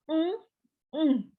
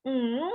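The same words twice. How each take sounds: First: "Hmm, hmm" as a short affirming hum meaning yes. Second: "Hmm" hummed with a negating tune meaning no. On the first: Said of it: "ini berarti hai". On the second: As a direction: hum "Hmm" to mean no. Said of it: "itu berarti iye". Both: Shown as a demonstration.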